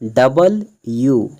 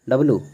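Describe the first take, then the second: First: It is said fully in three syllables, dub-ul-you. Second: It is squeezed into two syllables, dub-loo. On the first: The speaker calls it right. "इसका right pronunciation होता है डबल यू" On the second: The speaker calls it wrong. "इसको डब्लू नहीं बोलते हैं"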